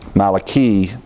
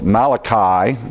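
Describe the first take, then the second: First: The final vowel sounds like 'ee'. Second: The final vowel sounds like 'eye'. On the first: "in the Hebrew pronunciation" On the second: "We pronounce the book Malachi, the I"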